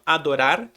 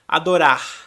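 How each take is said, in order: First: The final r is a quick tap. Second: The final r is a faint breath. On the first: "O mesmo R que você usou entre o O e o A, você usa no final" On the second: "quase não pronuncia o som do R. Ela faz mais um, uma sopradinha"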